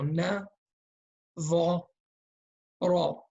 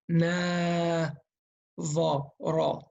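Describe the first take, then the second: First: Each syllable is short and equal in length. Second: The syllables are drawn out and uneven in length. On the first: The speaker calls it right. "They have to be equal length each letter" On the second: The speaker calls it wrong. "You cannot say"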